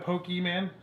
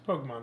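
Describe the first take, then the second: First: The last syllable sounds like 'man'. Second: The last syllable sounds like 'mon'. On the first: The speaker calls it wrong. "people will come up to me and they'll go" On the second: The speaker calls it right. "It's Pokemon"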